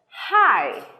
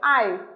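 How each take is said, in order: First: The word starts with a breathy h sound. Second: The word starts without an h sound. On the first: The speaker calls it right. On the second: The speaker calls it wrong.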